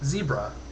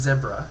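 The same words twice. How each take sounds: First: Zebra is said the American way. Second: Zebra is said a non-American way. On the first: "I happen to live in the U S. ... I've always grown up saying zebra" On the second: "instead of zebra ... I love the way you say it"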